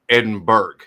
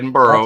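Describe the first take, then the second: First: The name ends with a 'berg' sound. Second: The name ends with a 'borough' sound. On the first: "Berg two" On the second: "Borough one"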